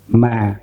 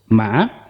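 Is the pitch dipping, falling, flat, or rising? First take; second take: falling; dipping. First: The pitch goes down. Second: The pitch dips down, then rises. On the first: "It's down" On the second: "is down and up"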